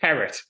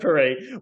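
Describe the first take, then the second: First: The name is pronounced the American way. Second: The name is pronounced the French way. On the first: The speaker calls it wrong. "we'll pronounce it Parrot" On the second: The speaker calls it right. "instead of Perret"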